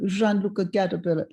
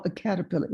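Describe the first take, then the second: First: Lightly imitated French accent; French-accented old gentleman. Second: Said in the usual way. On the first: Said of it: "he said to me in a French accent". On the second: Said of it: "and he saw a caterpillar".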